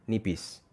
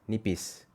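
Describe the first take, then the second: The two takes are said the same way.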